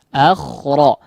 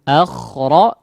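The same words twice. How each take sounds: The two takes are said the same way.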